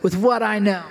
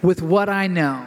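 First: It is said a little faster. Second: It is said at a slower pace.

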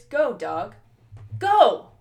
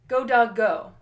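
First: There is a full-stop break after dog. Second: There is only a short comma-like break after dog.

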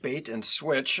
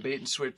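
First: It is said a little slower. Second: It is said at normal speed.

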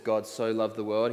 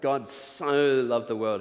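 First: It is said in a plain, normal voice. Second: It is said in a gushing teenage-girl voice.

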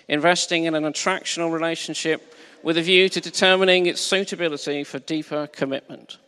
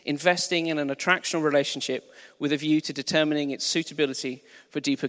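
First: It is read in a silly put-on voice. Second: It is read in a normal speaking voice.

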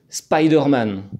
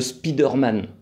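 First: It is pronounced with an American accent. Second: It is pronounced the French way. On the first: This is how Colombians say it. "avec un super accent bien à l'américaine" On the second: This is how the French say it. "comme on le prononce bien à la française"

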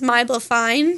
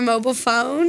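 First: It is said in an Australian accent. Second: It is said in a plain standard accent.

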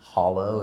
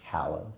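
First: The first vowel sounds like the 'o' in hot. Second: The first vowel sounds like the 'a' in cat. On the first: The speaker calls it wrong. "It's not hollow" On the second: The speaker calls it right. "it's hallow"

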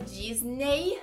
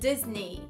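First: The word ends with a 'nay' sound. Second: The word ends with a 'nee' sound. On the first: The speaker calls it wrong. "a gente não pronuncia Disney em inglês" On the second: The speaker calls it right. "a gente diz Disney... o finalzinho é ni, não é ney"

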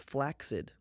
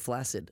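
First: The first C is a hard sound. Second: The first C is a soft sound. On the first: The speaker calls it right. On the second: The speaker calls it wrong.

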